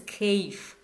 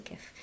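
First: כיף read as keif, with the written vowel; spelled-out reading. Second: כיף said as kef, soft and breathy; everyday pronunciation. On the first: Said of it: "Written as כיף". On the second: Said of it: "people say כיף". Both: Shown as a demonstration.

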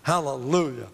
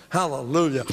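The two takes are said the same way.

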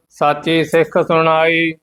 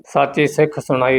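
First: Level, monotone Gurbani chant; measured devotional reading; scripture recitation. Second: "ਸਾਚੀ ਸਿੱਖ ਸੁਣਾਈ" spoken quickly as one phrase; phrasing demonstration. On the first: Acted. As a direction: recite on one steady note with a held ending. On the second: Shown as a demonstration. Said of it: "ਇਸੇ ਤਰ੍ਹਾਂ ਹੀ ਵਿਸ਼ਰਾਮ ਲਾਉਣਾ".

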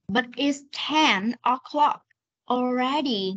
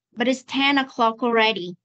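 First: "But it's ten o'clock already" stretched, pausing before "already"; slow reading. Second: "But it's ten o'clock already" joined in one run; fast linked reading. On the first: Teacher rereads for a confused student, slow reading. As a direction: read "But it's ten o'clock already" slowly, each ending clear. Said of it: "Đọc chậm này". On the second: Teacher rereads for a student, fast linked reading. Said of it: "Con đọc nhanh này". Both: Shown as a demonstration.

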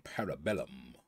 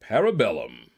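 First: Parabellum, rolled out much lower and softer; savoring the name. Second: Said in the usual way. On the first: Shown as a demonstration. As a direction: relish Parabellum low and deep. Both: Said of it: "name that just rolls off the tongue".

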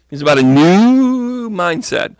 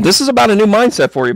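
First: "new" stretched long and swooping high; stress on "new". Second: Said in the usual way. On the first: Real, not acted. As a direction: draw out "new" in a rising swoop, then drop. Repeats the point with drawn-out NEW.

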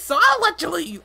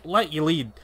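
First: Much higher, chirpy cartoon sidekick; bouncy little helper creature voice. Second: Said in the usual way. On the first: Sidekick voice then echo.

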